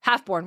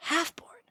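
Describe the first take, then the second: First: Said in the usual way. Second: HALFBORN? higher and softer, lifting at the end; softly puzzled echo of Halfborn?; puzzled question. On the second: Acted. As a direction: query Halfborn quietly with rising pitch. Other character queries the odd name.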